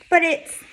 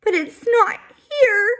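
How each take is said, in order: First: Crying. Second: Put-on high, slow, sobbing child; a scared boy crying for his lost toy. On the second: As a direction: wail it out through tears. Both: A narrator's reading. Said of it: "he finally cries".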